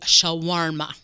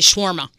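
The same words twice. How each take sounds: First: The word is said with an extra syllable. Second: The word is said with fewer syllables. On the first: This is how native speakers from Lebanon say it. "the people that work in the restaurant from Lebanon say shawarma. So it's got that extra syllable" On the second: This is the local American way of saying it. "I say shawarma. That West Virginia shawarma"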